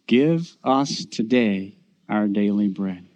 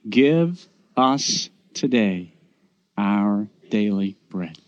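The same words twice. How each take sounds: First: It is said at a normal pace. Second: It is said slowly.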